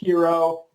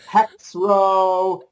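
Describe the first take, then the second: First: It is said in two syllables, like the word hero. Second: It is said in two syllables, starting with hex. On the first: The speaker calls it right. "but it is pronounced hero" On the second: The speaker calls it wrong. "They don't even try to pronounce it"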